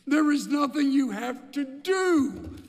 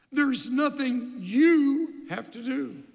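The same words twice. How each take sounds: First: "do" landed hard, higher and louder; stress on do. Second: "you" leaned on in "There's nothing you have to do"; stress on you. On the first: Buechner's line, ending on a stressed "do". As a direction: hit the final "do". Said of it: "changes emphasis". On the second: Buechner's line, stressing "you". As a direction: press on "you", slowly. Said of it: "changes the emphasis". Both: Shown as a demonstration.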